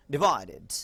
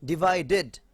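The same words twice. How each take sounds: First: "ডিভাইডেড" said "di-VAI-did"; DID ending. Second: "ডিভাইডেড" in full syllables ending "ded"; spelled DED ending. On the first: Teacher giving the right form, "did" on "ডিভাইডেড". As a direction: reduce the end of "ডিভাইডেড" to a short "did". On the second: Teacher reading the written form, full "ded" on "ডিভাইডেড". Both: Shown as a demonstration. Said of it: "উচ্চারণটা হবে".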